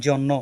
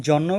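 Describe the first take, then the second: The two takes are said the same way.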